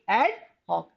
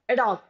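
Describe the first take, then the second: First: The phrase is said carefully and fully. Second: The phrase is said quickly and loosely. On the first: The speaker calls it right. "but it is actually ad hoc" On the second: The speaker calls it wrong. "Generally, in a hurry, we you know pronounce it as ad hoc"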